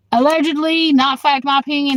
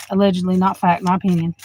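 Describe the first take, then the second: First: Pointed disclaimer. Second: Low muttered disclaimer. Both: Real, not acted.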